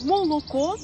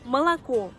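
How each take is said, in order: First: Every vowel is pronounced as a full 'o'. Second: The first two vowels sound like 'a'. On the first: It is read exactly as written. The speaker calls it wrong. "Ils le prononcent moloko" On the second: Unstressed o is reduced as in normal speech. The speaker calls it right. "ça se prononce malako"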